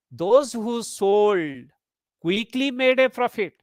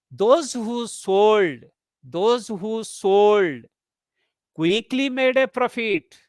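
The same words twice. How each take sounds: First: Slow, pause right after sold; focus on sold. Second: Slow, with a pause after sold; focus on sold. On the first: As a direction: sold stressed, then a break. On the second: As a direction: break the phrase right after sold. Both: Shown as a demonstration. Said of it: "Here the focus is on sold".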